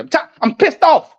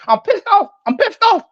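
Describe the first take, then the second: First: Said in the usual way. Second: Much higher, exasperated comic rant; a high comic yelp of annoyance; Bernie Mac impression. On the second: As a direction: squeal out the comedian's fed-up complaint. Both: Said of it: "like Bernie Mac said".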